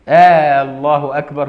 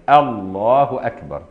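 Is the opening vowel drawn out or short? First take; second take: drawn out; short. First: The opening vowel is drawn out, like a question. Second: The opening vowel is short and cut off. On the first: It sounds like a question rather than a statement. The speaker calls it wrong. "فلو مد همزة لفظ الجلالة كأنها صارت استفهاما مش تقرير" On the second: It is a plain statement. The speaker calls it right. "لازم قطع كده"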